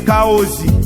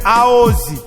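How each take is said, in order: First: The word starts with a k sound. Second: The word starts without a k sound. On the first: "De même que Kaozi" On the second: "on appelle Aozi"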